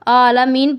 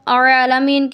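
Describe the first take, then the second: First: It begins with a plain glottal catch. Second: It begins with a squeezed throat sound. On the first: The speaker calls it wrong. "जो बिल्कुल गलत है" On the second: The speaker calls it right. "आइन और हमज़ा के दरमियान फ़र्क"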